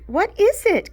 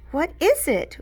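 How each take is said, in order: First: Much higher, louder squeal; excited squeal. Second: High, eager question; bouncing with excitement; eager squeal. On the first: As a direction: squeal it, can't wait. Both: A narrator's reading. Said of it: "Chloe squealed".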